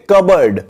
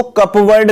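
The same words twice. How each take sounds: First: कबर्ड said "kub-erd", no p, short weak second syllable; कबर्ड with silent p, like "cubberd"; correct pronunciation. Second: कपबोर्ड said spelling-style as "cup-board", p and full oa sounded; deliberately wrong कपबोर्ड with clear cup and board; wrong pronunciation. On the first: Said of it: "इसकी pronunciation याद रखना". (कबर्ड को सही "कबर्ड" उच्चारण, p के बिना) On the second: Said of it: "इसको कपबोर्ड नहीं बोलते हैं". (कपबोर्ड को गलत ढंग से "कप-बोर्ड" बोलना) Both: Shown as a demonstration.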